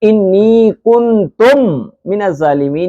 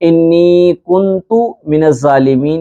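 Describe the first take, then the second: First: The second word ends with an m sound. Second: The second word ends without an m sound. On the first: The speaker calls it wrong. "ये सही नहीं है।" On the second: The speaker calls it right. "ये भी सही है।"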